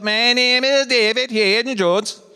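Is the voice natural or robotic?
robotic. It is said in a robotic voice. The speaker plays a hologram. "I'm trying to do eighties robot voice"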